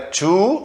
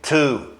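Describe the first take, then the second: First: It is said with pouted, rounded lips. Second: It is said with relaxed, nearly closed lips. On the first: The speaker calls it wrong. "Não é to, fazendo bico" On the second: The speaker calls it right. "com a boca fechada"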